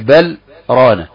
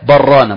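First: A brief silent stop comes between the words. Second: The words run together with no break. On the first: This is the reading with the long separated madd. The speaker calls it wrong. "ما تقولش بل رانا" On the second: This is the reading with the short separated madd. The speaker calls it right. "تقول كلا برانا مباشرة"

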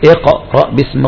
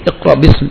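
First: The q sound is clearly released with an echo. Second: The q sound is dropped from the word. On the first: The speaker calls it right. "القلقلة اظهار للقاف" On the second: The speaker calls it wrong. "راحت القاف"

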